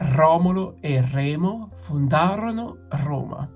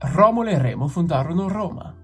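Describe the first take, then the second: First: The sentence is said at a slower pace. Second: The sentence is said at a faster pace.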